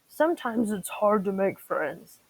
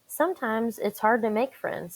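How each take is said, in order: First: It is said in a daddy T-Rex voice. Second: It is said in her normal voice.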